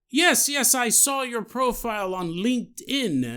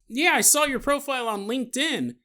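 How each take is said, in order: First: It is said in a put-on foreign accent. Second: It is said in the speaker's normal voice.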